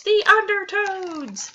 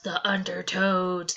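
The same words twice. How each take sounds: First: Slow, high, loud wail; scream. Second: Said in the usual way. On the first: Acted. Kid screaming at the beach, slow high wail. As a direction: stretch the scare out.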